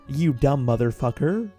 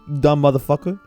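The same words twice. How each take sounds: First: It is said in a plain white-guy accent. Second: It is said in a New York street accent. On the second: "I guess I talk more with that accent nowadays"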